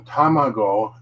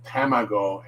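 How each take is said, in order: First: Tamago with open ah vowels, tah-mah-go; the right Japanese tamago; correct tamago. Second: Tamago with the A like apple, ta-MAA-go; an English speaker's mistake; wrong tamago. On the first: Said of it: "the A like apple". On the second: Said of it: "people often will say the A like apple". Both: Shown as a demonstration.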